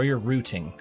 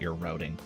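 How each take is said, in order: First: It is said with a British pronunciation. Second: It is said with an American pronunciation.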